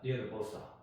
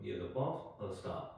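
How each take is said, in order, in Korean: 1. 빠르고 매끄럽게, 쉼 없이 말합니다. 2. 천천히, 한 단어씩, 쉬어가며 말합니다. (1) "익숙해지면은 ... 이런 식으로 이제 바로 나오는 거죠" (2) "처음에는 그냥 또박또박 음미하면서"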